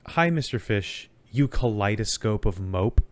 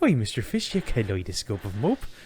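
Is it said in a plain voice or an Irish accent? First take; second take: plain voice; Irish accent. First: It is said in a plain, normal voice. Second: It is said in a put-on Irish accent.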